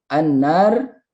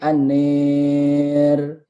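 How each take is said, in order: First: The long vowel is an open 'a' sound. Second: The long vowel leans toward an 'e' sound.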